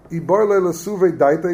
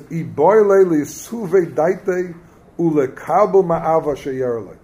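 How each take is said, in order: First: Said in the usual way. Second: Drawn out slowly, word by word; slow text reading; slow quoted reading. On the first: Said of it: "Masha'enken zeh adam". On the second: Shown as a demonstration. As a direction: read the source aloud slowly so they catch it. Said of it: "Listen to this".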